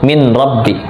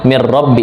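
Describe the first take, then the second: First: The n is kept before the r sound. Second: The n merges into the following r sound. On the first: The recitation rule is skipped, as allowed for hadith. "ini boleh" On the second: The Quran recitation rule is applied. "harusnya kan idgham bilaguna"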